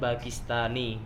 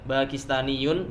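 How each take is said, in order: First: The word ends on a plain -i sound. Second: The word ends with an added -yun syllable.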